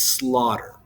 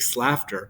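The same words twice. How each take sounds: First: The word rhymes with daughter. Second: The word rhymes with laughter. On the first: The speaker calls it right. "it makes slaughter" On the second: The speaker calls it wrong. "if you add an S to the beginning of the word laughter, it doesn't make slaughter"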